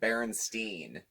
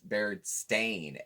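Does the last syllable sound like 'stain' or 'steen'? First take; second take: steen; stain. First: The last syllable sounds like 'steen'. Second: The last syllable sounds like 'stain'. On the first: The speaker calls it wrong. "I always said Berenstein" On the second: The speaker calls it right. "It's Bear Bear Stain. A I N"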